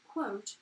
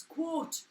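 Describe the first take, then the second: First: "quote" in a posh English accent. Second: "quote" in their own regional accent; higher-pitched "quote" in their natural, un-posh accent; speaker's own accent. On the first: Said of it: "in a posh English accent". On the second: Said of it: "but in my accent". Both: Shown as a demonstration.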